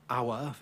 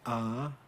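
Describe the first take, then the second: First: The word has a full diphthong and glide. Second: The word is smoothed into one long vowel. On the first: "he doesn't say hour" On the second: "he smooths, he says ah"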